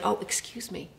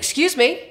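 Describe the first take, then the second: First: It sounds apologetic and sorry. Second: It sounds angry and annoyed.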